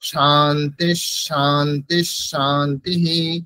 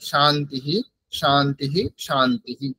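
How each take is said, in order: First: The first two words end in 'sh', linked onward. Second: Each word ends with a separate 'hi' sound. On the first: The words are joined by the grammar's sound-combination rules. "সন্ধির নিয়ম মেনে" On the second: Each word is pronounced on its own. "এটা যদি আমরা আলাদা আলাদা ভাবে উচ্চারণ করি"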